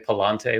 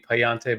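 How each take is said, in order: First: The second syllable starts with an l sound. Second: The second syllable starts with a y sound. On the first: The speaker calls it wrong. "I've heard people say ... which seems wrong to me" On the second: The speaker calls it right. "I think it should be"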